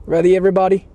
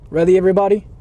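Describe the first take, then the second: No difference in how they are said.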